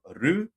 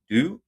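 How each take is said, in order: First: The consonant is a clear r sound. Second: The consonant is a clear d sound. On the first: "not ru" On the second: "not do"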